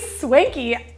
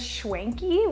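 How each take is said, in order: First: The word begins with an 's' sound. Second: The word begins with a 'sh' sound. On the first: This is how the speakers say it. "We say swanky" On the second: This is how a friend says it. "she says schwanky with an S H"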